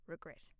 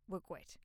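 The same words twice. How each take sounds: First: Said in the usual way. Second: "Regret" with the r said as w, "regwet"; soft baby-talk "Regret", like "wegwet"; playful mispronunciation. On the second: Shown as a demonstration. Host fooling with her topic title, saying "Regret" as "regwet". Plays with the word, then corrects.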